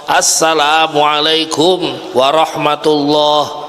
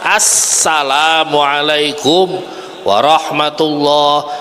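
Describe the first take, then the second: No difference in how they are said.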